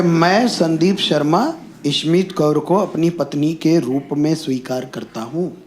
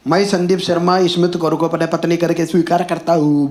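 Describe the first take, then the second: First: Slow, careful "मैं Sandeep Sharma", phrase by phrase; correct formal Hindi. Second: Lightly imitated Marathi accent, rattled off evenly; Marathi-accented Hindi. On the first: Shown as a demonstration. Groom correcting the oath, careful formal Hindi. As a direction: enunciate "के रूप में स्वीकार करता हूँ" in measured textbook Hindi. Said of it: "सही हिंदी के लिए, तो मुझे लग रहा है".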